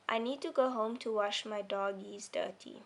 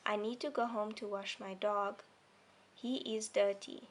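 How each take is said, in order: First: It runs on quickly with no pause after dog. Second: There is a clear pause after dog. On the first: The speaker calls it wrong. "If I took this comma out, I'd read it like this. ... I'm reading very fast and it doesn't sound right" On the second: The speaker calls it right. "Did you hear I stopped as a as a pause there and then I carried on"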